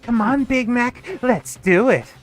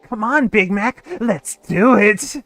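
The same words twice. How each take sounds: First: It is said in a higher voice. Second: It is said in a lower voice.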